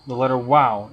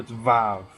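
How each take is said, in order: First: The name begins with a w sound. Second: The name begins with a v sound. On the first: This is the older pronunciation. "It doesn't have a V sound" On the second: This is the modern Hebrew pronunciation. "In modern Hebrew"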